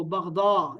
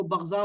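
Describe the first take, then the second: First: بغضا with ض as a heavy d; بغضا with a d sound, not z; Arabic daad pronunciation. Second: بغضا with ض as a z; بغضا with a z sound, not d; Urdu zaad pronunciation. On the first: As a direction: say بغضا as baghda, Arabic style. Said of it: "عربی میں دوات پڑھنا ہے". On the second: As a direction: say بغضا as baghza, Urdu style. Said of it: "Urdu میں زوات پڑھنا ہے". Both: Shown as a demonstration.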